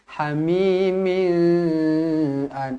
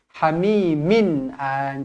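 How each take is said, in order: First: The n sound is blurred and indistinct. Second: The n sound is pronounced clearly and distinctly. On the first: The speaker calls it wrong. "Jangan hamimin an, tak nak" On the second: The speaker calls it right. "bacaan dia hamimin an"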